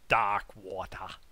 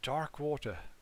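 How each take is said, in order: First: It is said in a put-on Boston accent. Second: It is said in a plain, neutral accent.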